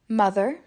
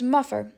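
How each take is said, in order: First: The middle consonant is a TH sound. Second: The middle consonant is an F sound.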